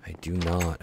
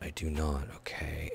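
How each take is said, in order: First: Said in the usual way. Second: Muttered softly under breath; whispered aside. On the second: Real, not acted. Gamer confessing he forgot how, whispering. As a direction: drop to a whisper, admitting it to himself.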